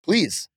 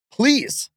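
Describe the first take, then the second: First: Please said once as a pleading word, raised and falling. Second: Please pushed much higher, then falling in mock begging; higher pleading please. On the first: Wrestler begging rivals to step up, pleading. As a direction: ask with a mock-begging Please. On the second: Wrestler begging rivals again, hammed-up pleading. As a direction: beg harder on the second Please. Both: Real, not acted.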